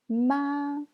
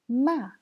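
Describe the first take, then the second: First: It is said with the first tone. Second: It is said with the fourth tone. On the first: "C'est le premier ton" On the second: "c'est le quatrième ton"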